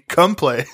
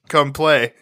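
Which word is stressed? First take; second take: Come; Play. First: The word come carries the stress. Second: The word play carries the stress. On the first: The title is made into a joke. The speaker calls it wrong. "he kept calling the movie Come Play" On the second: The title is said as intended. The speaker calls it right. "instead of Come Play. It's just what you emphasize"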